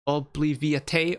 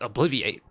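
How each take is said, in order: First: It copies the pronunciation used in the song. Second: It uses the usual English pronunciation. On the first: "they obviously sing it Obliviate" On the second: "I know the word is Obliviate"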